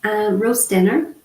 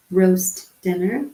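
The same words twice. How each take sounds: First: Said in the usual way. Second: Slow, clear repeat. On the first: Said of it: "announcing the next sign". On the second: Shown as a demonstration. Teacher repeats the sign name for viewers, slow and clear. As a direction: say roast dinner slowly, each word distinct. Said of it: "repeats the sign slowly".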